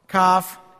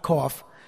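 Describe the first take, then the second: First: It is said unlike the ordinary English word cough. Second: It is said like the ordinary English word cough. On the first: The speaker calls it right. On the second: The speaker calls it wrong.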